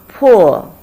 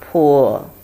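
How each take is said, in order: First: It is said with the fourth tone. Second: It is said with the third tone. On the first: "Fourth tone" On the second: "Third tone"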